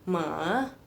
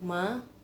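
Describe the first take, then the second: First: It is said with the third tone. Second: It is said with the second tone. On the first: "nada ketiga... Jadi turun dulu terus naik" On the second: "nada kedua ini agak susah dibacanya... kayak manggil mama"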